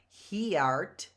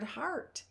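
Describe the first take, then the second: First: The E is heard, two syllables. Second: The E is silent, one syllable. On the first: The speaker calls it wrong. "It's not he art" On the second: The speaker calls it right. "you can't hear the E in H E A R T"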